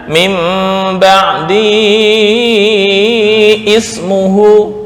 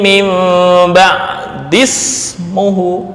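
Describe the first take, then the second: First: A glottal stop is pronounced before ismuhu. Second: The words run together with no glottal stop. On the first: The speaker calls it wrong. "bukan min ba'di ismuhu" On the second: The speaker calls it right. "Padahal ini ada tanda shad sebagai isyarat hamzah wasal"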